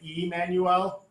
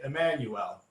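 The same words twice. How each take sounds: First: The vowel is said as a full vowel. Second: The vowel is reduced to a schwa. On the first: The speaker calls it wrong. "rather than saying Emmanuel" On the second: The speaker calls it right. "I usually say Emmanuel. So not Emmanuel, but rather the schwa"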